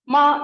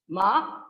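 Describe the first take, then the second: First: The pitch stays high and level. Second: The pitch rises from mid to high. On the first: It means mother. "ma with high level pitch" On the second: It means hemp. "Ma with high rising pitch"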